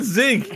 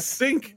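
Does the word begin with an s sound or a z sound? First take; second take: z sound; s sound. First: The word begins with a buzzing z sound. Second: The word begins with a hissing s sound. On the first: The speaker calls it wrong. "It's not zinc" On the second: The speaker calls it right. "it's a sink"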